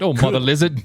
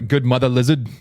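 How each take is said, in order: First: It is said in a put-on British accent. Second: It is said in his normal accent.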